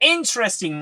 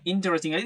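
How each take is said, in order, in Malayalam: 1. ഒരു സിലബിൾ ഞെരുങ്ങിപ്പോകുന്നു, അതുകൊണ്ട് മൂന്ന് സിലബിൾ. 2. എല്ലാ സിലബിളും പറയുന്നു, അതുകൊണ്ട് നാല് സിലബിൾ. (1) "മൂന്ന് സിലബിൾ മാത്രമേ ഉണ്ടായിരുള്ളൂ" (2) "ഇത് ഒരിക്കലും"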